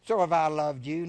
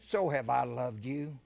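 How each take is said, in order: First: So have I loved you, with the so rising and loud; loud repeat. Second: Said in the usual way. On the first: Shown as a demonstration. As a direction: hit it louder for the congregation. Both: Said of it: "listen to Jesus talk to us".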